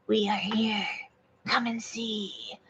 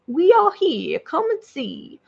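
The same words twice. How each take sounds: First: Hushed, slow otherworldly alien voice; alien being. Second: Southern hick alien, lifted then dropping away. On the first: Acted. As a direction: beckon softly and slowly as an alien. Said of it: "the being said". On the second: Pretend. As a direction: speak the alien's line with a Southern country twang. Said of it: "It's a hick alien is too weird".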